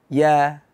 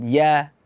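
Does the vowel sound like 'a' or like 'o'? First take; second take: a; a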